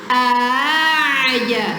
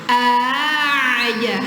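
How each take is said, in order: The two takes are said the same way.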